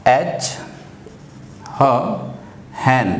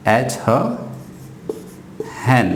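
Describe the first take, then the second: No difference in how they are said.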